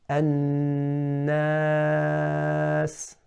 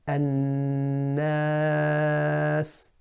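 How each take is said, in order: No difference in how they are said.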